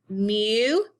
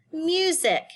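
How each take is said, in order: First: "Mu-zic" split with a long pause; syllable by syllable. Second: Said in the usual way. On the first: Shown as a demonstration. Teacher showing two syllables, "Mu-zic" broken apart. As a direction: hold "Mu", pause, then add "zic". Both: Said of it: "This word has two syllables".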